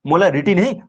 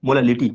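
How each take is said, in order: First: मोलारिटी with an R sound, then नहीं; wrong word rejected. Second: मोलालिटी with an L sound in place of R; corrected word. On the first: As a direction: say मोलारिटी with "ri" as the mistake. (मोलारिटी में "र" बोलकर गलती बताना) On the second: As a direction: give the correction मोलालिटी with "li", settling down in pitch. (मोलालिटी में "ल" का साफ़ उच्चारण) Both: Shown as a demonstration.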